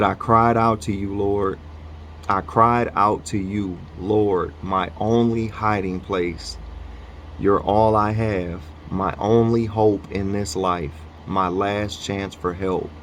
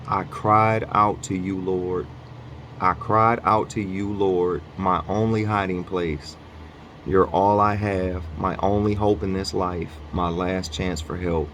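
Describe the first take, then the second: First: Reading a psalm aloud with steady emphasis; scripture reading. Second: Softer scripture reread. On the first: Reading a psalm to viewers, earnest steady read. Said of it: "It said". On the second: Rereading the psalm for viewers, softer and more settled. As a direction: let the repeat settle more quietly. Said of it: "I'm gonna read this one more time". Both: Shown as a demonstration.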